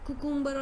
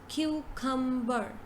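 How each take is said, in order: First: The first syllable does not sound like 'Q'. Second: The first syllable sounds like 'Q'. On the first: The speaker calls it wrong. "instead of saying cucumber, you say, sorry, uh, cucumber or something like this" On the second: The speaker calls it right. "The correct pronunciation is cucumber. So it's Q cum ber"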